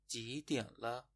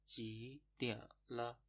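First: Said in the usual way. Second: Slow. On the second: Shown as a demonstration. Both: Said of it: "خب پس شد".

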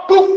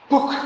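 First: "book" dengan k tertahan, tanpa embusan; lafal Indonesia. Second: "Book" dengan k dilepas berembus. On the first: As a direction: ucapkan "book" seperti orang Indonesia, akhirnya mati. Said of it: "Kayak orang Indonesia". ("book" berbunyi "bu'" dengan akhir tertutup) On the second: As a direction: tutup "Book" dengan k berangin. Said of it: "Karena pakai K". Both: Shown as a demonstration.

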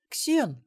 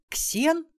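First: High, falling exclamation of amazement; stunned. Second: Put-on very high, rising girl's voice; astonished question. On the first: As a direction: say the name high, landing it as a stunned recognition. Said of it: "обалденно проговорила внучка". (обалдевшее восклицание высоким голосом) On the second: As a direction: ask the name in high disbelief. (удивлённый вопрос очень высоким голосом) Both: A narrator's reading.

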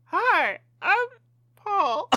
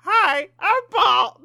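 First: High hooting monkey squeak. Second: High, slow hooting monkey voice. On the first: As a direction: pitch way up like a silly monkey. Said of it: "we all have to do the monkey voice". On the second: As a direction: squeak it out slowly like a monkey. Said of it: "I'm gonna do it again". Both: Pretend.

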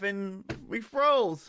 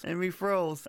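First: Slow, stretched out "froze"; drawn-out dramatic. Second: Said in the usual way. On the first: Shown as a demonstration.

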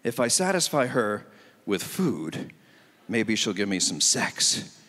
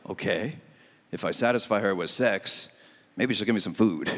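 First: Lower, slow scheming inner voice; single guy's thinking. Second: Low, deadpan inner voice, reversed deal; married guy's thinking. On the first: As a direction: plot it out slowly, low and sly. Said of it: "So the thinking is". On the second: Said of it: "Then it's like". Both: Retold or imitated.

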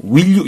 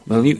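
First: "Will you" said fully as spelled; innocently by-the-book "Will you", clear short i; naive textbook pronunciation. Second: "Well you", will relaxed to an "eh" vowel; American-style pronunciation. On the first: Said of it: "순진하게 발음하진 않습니다". ("Will you"를 순진하게 "윌유"로) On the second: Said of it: "이렇게 발음된다는 거". ("Well you", "웰유"처럼 풀어서 발음) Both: Shown as a demonstration.

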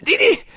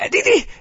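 First: Put-on high, loud triumphant old woman; see? rising, delighted; gloating grandmother. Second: High, loud, falling gloat; see! landing firmly; triumphant grandmother. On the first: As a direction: crow over the win. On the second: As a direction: hammer the point home. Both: A narrator's reading. Grandmother gloats after win.

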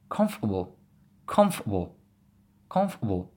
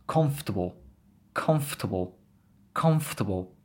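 First: "comfortable" as comf'uh-bl, a catch for the T; glottal T. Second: Said in the usual way. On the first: Shown as a demonstration. Teacher showing learners the next word, glottal T in "comfortable". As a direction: say "comfortable" with the T stopped in the throat. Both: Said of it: "Just focus on the T".

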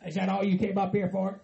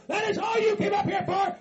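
First: Said in the usual way. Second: High, shouted disbelief; riled up. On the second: Acted. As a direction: throw the question back as an angry yell. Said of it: "You're getting all riled up".

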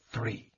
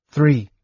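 First: Hollow, much softer toneless voice; empty, expressionless. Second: Said in the usual way. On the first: A narrator's reading. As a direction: drain all feeling from the word Three. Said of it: "his voice empty, expressionless".

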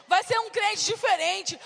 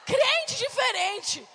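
First: Preaching shout. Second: Crente diferente, slow, higher, with crente stressed; stressed repeat. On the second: Repeating the phrase to the church, slow and emphatic. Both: Shown as a demonstration.

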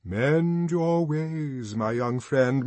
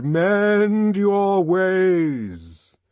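First: Slow, louder, grave warning; sepulchral. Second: Very slow, much louder, higher drawn-out doom; sepulchral, booming. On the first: Songster warning Bernard, slow sepulchral voice. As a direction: intone it like a tomb. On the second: Songster's last warning to Bernard, booming sepulchral. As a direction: drag it out like a final judgement. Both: A narrator's reading. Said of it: "His voice became sepulchral".

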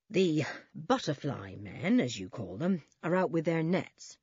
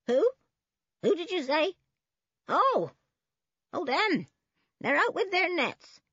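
First: Policeman. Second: Put-on high-pitched querulous old woman; grumbling old woman. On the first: Policeman telling the children what he learned, measured. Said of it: "said one policeman". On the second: Old woman answering the policemen's question, high and querulous. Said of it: "mumbled the old woman". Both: A narrator's reading.

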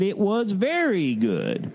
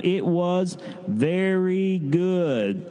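First: Said in the usual way. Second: Very slow, stretched-out unison line; leading a group response. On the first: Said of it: "and he said". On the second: Shown as a demonstration. Leader asking kids to say it together, very slow. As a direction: draw every word out so kids can join in. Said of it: "say with me one last time".

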